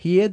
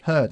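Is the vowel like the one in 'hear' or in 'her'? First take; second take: hear; her. First: The vowel sounds like the one in hear. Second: The vowel sounds like the one in her. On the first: The speaker calls it wrong. "No decimos heard" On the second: The speaker calls it right. "el pasado del verbo to hear no se pronuncia igual que hear"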